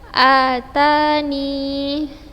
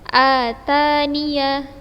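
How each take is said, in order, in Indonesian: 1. Kata itu berakhir dengan bunyi i pendek. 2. Kata itu berakhir dengan suku kata ya penuh. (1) "Bisa menetapkan ya" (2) "dibaca fathah ketika wasal"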